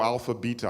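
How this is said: Beta is said the British way.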